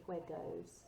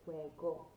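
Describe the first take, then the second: First: "juegos" with an English "goes" ending; wrong anglicised O. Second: "Juego" ending in a short Spanish O; correct O sound. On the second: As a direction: say "Juego" with a crisp, short final O. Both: Shown as a demonstration. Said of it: "got that O sound at the end".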